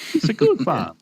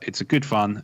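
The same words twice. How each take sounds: First: It is said in a Mario voice. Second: It is said in his normal voice.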